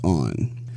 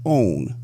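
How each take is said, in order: First: The vowel is short and open, like 'on'. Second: The vowel glides like the word 'own'. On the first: This is the standard way to say it. The speaker calls it right. "The correct pronunciation of the word is on" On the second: This is how it is said in the South. The speaker calls it wrong. "In the South, it is pronounced own"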